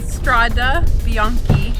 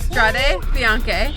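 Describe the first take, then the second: First: The words end in a and i sounds. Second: The words end in e and e sounds. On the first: The speaker calls it wrong. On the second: The speaker calls it right.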